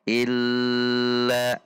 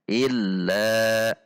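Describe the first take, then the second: First: The doubled consonant is held long. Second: The doubled consonant is of moderate length. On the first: The speaker calls it wrong. "illa itu panjang tidak boleh" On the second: The speaker calls it right. "dibaca di antara keduanya atau bainiyah"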